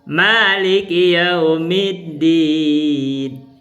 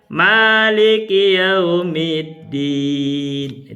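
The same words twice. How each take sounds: First: The vowels are held short, two beats. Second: The vowels are held long, four beats. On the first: The speaker calls it right. "Itu dua harkat" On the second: The speaker calls it wrong. "Itu empat harkat jadinya. Ini keliru kan?"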